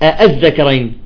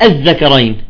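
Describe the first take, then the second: No difference in how they are said.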